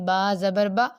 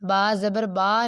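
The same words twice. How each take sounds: First: The final vowel is cut off abruptly. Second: The final vowel is stretched out long. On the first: "ना ही इतनी जल्दी पढ़ना है कि झटका महसूस हो" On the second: "खींचना नहीं है उसे, अलिफ मदा जैसा नहीं पढ़ना"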